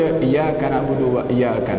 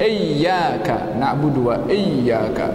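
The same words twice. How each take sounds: First: The Y sound in iyyaka is single. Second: The Y sound in iyyaka is doubled. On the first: The speaker calls it wrong. "Tak boleh dibaca" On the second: The speaker calls it right. "Ya-nya ada tasydid"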